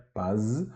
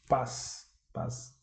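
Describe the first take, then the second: First: "Paz" with a buzzing z at the end; voiced final Z. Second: "Paz" ending in a hissed s, quietly; devoiced final Z. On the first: Teacher shows the written Russian word, "Paz" with voiced z. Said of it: "a letra Z". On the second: Teacher shows Russian matches Portuguese, "Paz" ending in s. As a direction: say "Paz" softly with z turned to s. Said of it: "na pronúncia vamos fazer a mesma coisa". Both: Shown as a demonstration.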